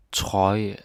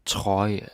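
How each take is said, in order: Both takes have the same delivery.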